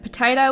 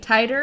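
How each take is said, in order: First: It is said in standard pronunciation. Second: It is said in Southern pronunciation.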